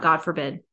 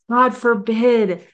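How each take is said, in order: First: Said in the usual way. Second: "God" stretched out, higher and louder, drawn slowly; "God forbid" proclaimed, slow and raised; emphatic slow God forbid. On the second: Shown as a demonstration. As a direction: lean hard on "God", slow and loud.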